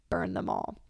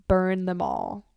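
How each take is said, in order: First: Soft menacing whisper; softer whispered repeat. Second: Slow villain line. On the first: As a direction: breathe burn them all like a dark secret. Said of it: "quoting Daenerys again". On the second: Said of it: "quoting Daenerys". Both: Retold or imitated.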